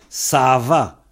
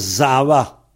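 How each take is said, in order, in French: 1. Le mot commence par un son S. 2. Le mot commence par un son Z. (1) "Mais ça s'écrit Sava" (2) "Mais on prononce Zava"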